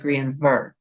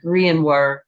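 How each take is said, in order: First: The middle consonant is a V sound. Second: The middle consonant is a W sound. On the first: "as opposed to Grianver" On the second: "I believe it should be pronounced as a W sound. So more like Grianwar"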